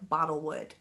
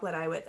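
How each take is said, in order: First: The name is pronounced like English 'bottle wood'. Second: The name is pronounced with Welsh sounds.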